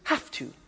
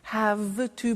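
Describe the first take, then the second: First: The word 'have' ends with an F sound. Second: The word 'have' ends with a V sound. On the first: "becomes in pronunciation" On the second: "I don't say V"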